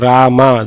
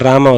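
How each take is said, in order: First: The 'a' vowel is said long. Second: The 'a' vowel is said short. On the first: It refers to respectable women. The speaker calls it right. "This is bigger A pronunciation" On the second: It names the Lord rather than women. The speaker calls it wrong. "It is not Rama"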